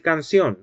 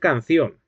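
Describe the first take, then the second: First: The c is pronounced as an s sound. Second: The c is pronounced as a th sound. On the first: This is how a speaker from Spain would never say it. "nunca va a decir canción" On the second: This is how a speaker from northern Spain says it. "va a decir canción"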